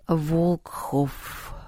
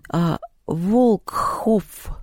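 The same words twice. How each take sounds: First: Soft, musing Волкхоф, said to himself; pensive repetition. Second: Slow, breathy, stretched Волкхоф; breathy drawn-out name. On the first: Acted. Антоха repeats the strange name, soft and musing. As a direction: murmur Волкхоф quietly, lost in thought. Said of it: "в задумчивости повторил Антоха". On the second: Retold or imitated. Поляндра calling Антон by surname, breathy drawl. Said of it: "как будто с придыханием".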